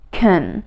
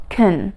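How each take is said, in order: First: The vowel is reduced, short and unstressed. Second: The vowel is reduced, short and unstressed.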